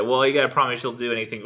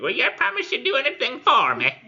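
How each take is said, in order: First: Said in the usual way. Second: Very high, louder screeching hag; terrible hag voice. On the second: Acted. Hag bargains with the desperate knight, terrible high screechy voice. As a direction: screech it like a dreadful crone. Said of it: "terrible sounding voice".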